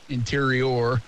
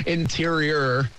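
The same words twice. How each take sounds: First: Said in the usual way. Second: Drawn-out Rhode Island "Interior"; Rhode Island accent. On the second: Shown as a demonstration. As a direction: say "Interior" slowly, dropping the final r the Rhode Island way. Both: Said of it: "That's how they say it in Rhode Island".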